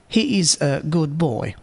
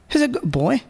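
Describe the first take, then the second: First: Slower, with the d of good fully pronounced. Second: Very fast, with the d of good dropped. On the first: "Normal speaker. ... Here there is no assimilation or elision effect. Speed fifty percent" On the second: "Very fast speaker. ... Elision effect of a good is elided here. The speed is one hundred percent"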